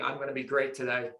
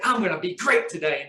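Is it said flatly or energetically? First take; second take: flatly; energetically. First: It is said flatly, without energy. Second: It is said with lots of energy.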